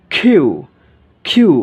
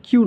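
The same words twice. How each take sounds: First: "কিউ" loud, as khiu with a puffed k; corrected letter Q. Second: Said in the usual way. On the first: Shown as a demonstration. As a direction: punch the breathy k of "কিউ", falling. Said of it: "খ একার রস্যেও এর মতো". ("কিউ" জোরে, খ-ধ্বনিতে) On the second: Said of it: "সঠিক উচ্চারণ কিউ নয়".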